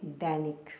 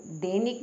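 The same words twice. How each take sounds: First: दैनिक lower, with open ai, dai-nik; correct pronunciation. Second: दैनिक with closed e, de-nik; wrong pronunciation. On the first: Teacher answering herself, दैनिक said with open ai. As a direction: open the first vowel of दैनिक. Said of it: "द पर ए की मात्रा". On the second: Teacher showing a misspelling, दैनिक said with narrow e. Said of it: "दैनिक नहीं लिखेंगे आप". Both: Shown as a demonstration.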